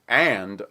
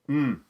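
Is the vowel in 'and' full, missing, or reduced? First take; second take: full; missing. First: It is said with a full, clear vowel. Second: It is said as a hum with no vowel. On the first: "a strong form of and" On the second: "or even mm"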